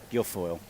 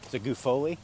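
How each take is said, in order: First: The name sounds like 'Guilfoyle', with an 'l' sound. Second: The name sounds like 'Guffoli', with no 'l' sound. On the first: The speaker calls it right. "I was saying it wrong" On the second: The speaker calls it wrong. "I'm not sure if I'm saying it right or not"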